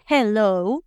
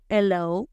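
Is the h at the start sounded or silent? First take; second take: sounded; silent. First: The starting h is sounded like a breathy j. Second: The starting h is silent. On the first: The speaker calls it right. "la H suena como J, por eso se dice hello" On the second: The speaker calls it wrong. "no hello"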